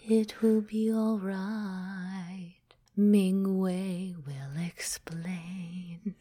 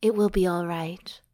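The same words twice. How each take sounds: First: Slow breathy dragon whisper. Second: Said in the usual way. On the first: Shown as a demonstration. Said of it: "this is the dragon talking". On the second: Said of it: "maybe I should sing this".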